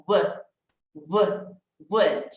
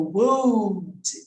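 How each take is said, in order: First: "would" said short, with no L sound; silent L. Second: "would" drawn out with the silent L wrongly voiced; mock mispronunciation of "would" as "woooold"; sounded L. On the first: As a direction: build "would" from a repeated "wu", dropping the L. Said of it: "Esse L eu não falo". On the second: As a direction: stretch "would" slowly, pronouncing its L. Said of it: "Esse L eu não falo, então não tem o would". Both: Shown as a demonstration.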